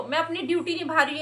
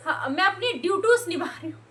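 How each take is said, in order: First: ड्यूटी said as the proper singular, quick and plain; ड्यूटी, the word as it should be; correct singular duty. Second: ड्यूटीज mocked as a wrong plural, stretched and stressed; mocking her duties. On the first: Shown as a demonstration. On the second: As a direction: mimic her saying ड्यूटीज, leaning on अपनी. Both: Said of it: "ये नहीं बोली".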